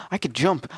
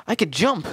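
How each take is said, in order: First: Said in the usual way. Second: A higher, louder delighted cry; excited. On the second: Real, not acted. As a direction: shout it with delight. Jump discovery, repeated.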